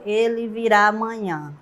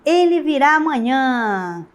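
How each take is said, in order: First: It is said flatly, as a plain statement. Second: It is said with lively, emotional exclamatory intonation. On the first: It simply affirms that he will come tomorrow. "se tivesse só um ponto final" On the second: It conveys feeling and emotion about his coming. "Quando eu coloco o ponto de exclamação"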